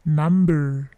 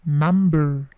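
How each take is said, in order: Both takes have the same delivery.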